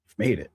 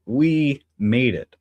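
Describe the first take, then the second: First: Said in the usual way. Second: "We made it" stretched out very slowly and a bit louder, landing on "We"; slow emphatic. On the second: Real, not acted. Streamer assuring viewers they made it, slow and emphatic. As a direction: lean hard on "We", drawing every word out.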